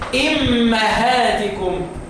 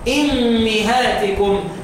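First: The m is followed by an a vowel. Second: The m is followed by an i vowel. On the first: This is the reading of another reciter. "طب لو اقرا للكسائي" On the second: This is the reading of one reciter. "واكسر الميم. يبقى انا لما اقرا لحمزه"

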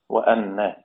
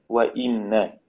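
First: The hamza is read with an 'a' vowel. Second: The hamza is read with an 'i' vowel. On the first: "بفتح الهمز" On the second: "بكسر الهمز كما بين"

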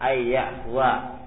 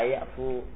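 First: The word ends with a final -wa syllable. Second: The word ends on -fu with no final syllable. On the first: The speaker calls it right. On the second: The speaker calls it wrong.

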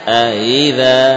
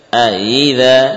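No difference in how they are said.

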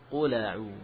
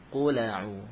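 The two takes are said the same way.

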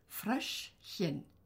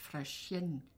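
First: The word is split into two separate parts. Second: The word is run together in one piece. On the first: The speaker calls it right. "Man muss das Wort teilen, wenn man es ausspricht" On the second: The speaker calls it wrong. "nicht Fröschchen"

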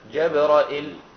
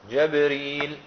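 First: Open a vowels, then a hamza with no long i. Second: Open a, then r with long i, no hamza. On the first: "بفتح الجيم والراء وهمزة مكسورة وبعدها لا مباشرة من غير ياء" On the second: "بفتح الجيم ... وكسر الراء وبعدها ياء من غير همزة"

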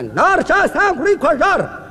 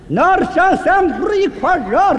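First: The phrase is spoken at a fast pace. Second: The phrase is spoken at a very slow pace. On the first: "您能不能把这速度放慢一点？" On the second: "再慢点"

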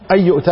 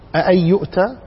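First: A single short hamza opens the phrase. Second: A second, softened hamza follows the first one. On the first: It is a plain statement. "على ظاهرها كما هي هنا" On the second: It is a rebuking question. "لكن بتخفيف الهمزة الثانية"

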